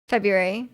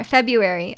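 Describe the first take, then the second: First: February with a clear R after the b. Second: February said feb-yoo-ary, no R; February without the R. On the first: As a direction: say February with the R, feb-ROO-ary. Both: Shown as a demonstration. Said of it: "I don't think we say the R".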